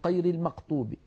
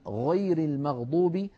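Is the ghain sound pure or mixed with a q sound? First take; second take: q-mixed; pure. First: The ghain sounds mixed with a q sound. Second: The ghain sounds like a clear gh sound. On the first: The speaker calls it wrong. "يشوبون صوت الغين بشيء من القاف" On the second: The speaker calls it right. "بدلا من"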